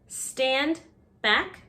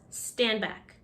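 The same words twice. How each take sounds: First: The final D sound of stand is heard. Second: The final D sound of stand is dropped.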